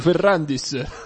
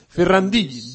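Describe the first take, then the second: First: The name ends with an audible s sound. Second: The name ends without any s sound. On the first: This is the local, homely way of saying it. The speaker calls it wrong. "Ferrandis si dice proprio a Terni, si dice Ferrandis" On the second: This is the refined, proper way of saying it. The speaker calls it right. "la pronuncia più squisita è sì, questa"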